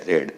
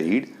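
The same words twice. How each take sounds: First: રેડ said with a short e, like red; past-tense read. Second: રીડ said with a long ee, like reed; present-tense read. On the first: Teacher showing students the past-tense read as રેડ. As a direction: say રેડ rhyming with bed. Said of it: "ભૂતકાળ અને ભૂતકૃદંતનો ઉચ્ચાર થાય રેડ". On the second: Teacher showing students the present-tense read as રીડ. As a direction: say રીડ rhyming with need. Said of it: "મૂળ ક્રિયાપદ હોય તો એનો ઉચ્ચાર થાય રીડ". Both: Shown as a demonstration.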